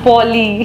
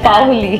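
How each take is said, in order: First: The first syllable is a single plain 'o' vowel. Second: The first syllable is an 'a' gliding into 'o'. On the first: Other people said it this way. The speaker calls it wrong. "It's not পৌলি or পলি" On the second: This is the name's proper form. The speaker calls it right. "It's পাওলি"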